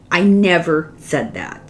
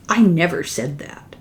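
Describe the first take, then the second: First: Mildly insistent retold denial, leaning on "never"; stress on NEVER. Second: "I" leaned on, the rest falling away; mild retold protest, weight on "I"; stress on I. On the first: Repeating her denial to the translators, stress on "never". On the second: A wife quoting her horrified protest, stress on "I". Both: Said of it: "she said".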